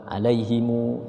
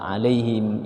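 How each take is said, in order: First: The final m is followed by a u vowel. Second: The final m has no following vowel. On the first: "dibaca silah atau dhammah" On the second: "wajah pertama sukun"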